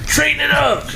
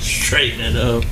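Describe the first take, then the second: First: Mock high squeak. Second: Mock-serious slow repeat of Straighten it up. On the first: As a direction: jump way up high and squeaky on Straighten it up. Teasing about straightening the mic. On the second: Repeats the tease, now low.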